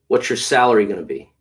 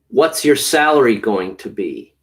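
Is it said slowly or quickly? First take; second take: quickly; slowly. First: It is said quickly, as in conversation. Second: It is said slowly and carefully.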